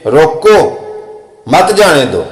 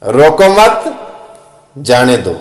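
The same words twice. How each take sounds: First: ਰੋਕੋ alone and rising, long pause, then ਮਤ ਜਾਣੇ ਦੋ together, falling; pause after ਰੋਕੋ. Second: ਰੋਕੋ ਮਤ rising, long pause, ਜਾਣੇ ਦੋ falling; pause after ਮਤ. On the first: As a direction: set ਰੋਕੋ apart from the next three words. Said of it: "ਪਹਿਲਾ ਲਫ਼ਜ਼ ਵੱਖਰਾ ਪੜ੍ਹੀਏ ਤੇ ਅਗਲੇ ਤਿੰਨ ਵੱਖਰੇ". (रोको के बाद लंबा विराम) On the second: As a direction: split it in pairs, lifting the pitch up to ਮਤ. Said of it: "ਪਹਿਲੇ ਦੋ ਲਫ਼ਜ਼ ਵੱਖਰੇ ਪੜ੍ਹੀਏ". (मत के बाद लंबा विराम, फिर गिरता सुर) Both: Shown as a demonstration.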